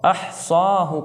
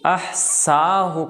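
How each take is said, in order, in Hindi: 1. बीच का व्यंजन एक मोटा भारी स है। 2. बीच का व्यंजन एक साधारण पतला स है। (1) "यहाँ पर सौद है" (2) "सीन"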